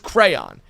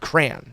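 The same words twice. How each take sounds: First: It is said with two full syllables. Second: It is said as one syllable, like cran. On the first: The speaker calls it right. "It's crayon" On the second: The speaker calls it wrong. "You're just saying C R A N"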